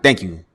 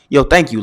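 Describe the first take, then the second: First: It sounds curt and dismissive. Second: It sounds warm and grateful.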